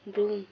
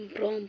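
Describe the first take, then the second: First: "ब्रूम" with a long oo, louder; corrected pronunciation. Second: "ब्रोम" with an o vowel; wrong o sound in "ब्रोम"; mispronounced broom. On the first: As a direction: hit "ब्रूम" loudly with oo. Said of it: "ब्रोम है ना". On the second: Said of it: "ब्रोम पढ़ल". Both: Shown as a demonstration.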